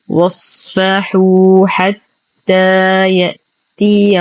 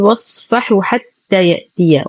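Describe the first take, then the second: First: The long vowels are held their full length. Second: The long vowels are clipped short. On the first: The speaker calls it right. "والصواب" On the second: The speaker calls it wrong. "ننتبه من عدم اختلاسها، فلا نقول واصفحوا حتى يأتي، وهذا خطأ"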